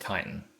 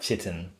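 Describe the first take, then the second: First: The word begins with a 'k' sound. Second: The word begins with a 'ch' sound. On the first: The speaker calls it right. "but it's pronounced chitin" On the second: The speaker calls it wrong. "I used to call that chitin"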